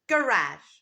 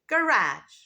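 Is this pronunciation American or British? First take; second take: American; American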